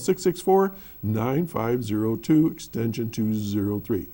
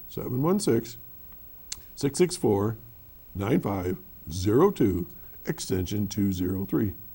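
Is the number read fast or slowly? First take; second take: fast; slowly. First: The number is read at a normal, quicker pace. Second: The number is read more slowly.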